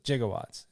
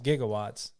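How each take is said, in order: First: The word begins with a J sound. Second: The word begins with a hard G sound. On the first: This is how it was pronounced at the time. "how it was pronounced back then" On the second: This is the usual modern pronunciation. "It was gigawatts"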